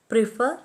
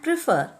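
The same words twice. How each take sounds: First: Pre-FER, rising on the second syllable; stress on the root. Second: PRE-fer, stressed first and falling; first-syllable stress. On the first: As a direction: prefer accented after the prefix, tune going up. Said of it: "are accented on the root". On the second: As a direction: prefer accented at the front, tune falling away. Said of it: "are accented on the first syllable". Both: Shown as a demonstration.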